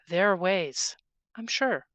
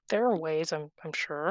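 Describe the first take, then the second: First: The voice sounds firm and confident. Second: The voice sounds hesitant and unsure. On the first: The speaker calls it right. "Square's shoulders" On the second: The speaker calls it wrong. "That didn't sound confident the first time"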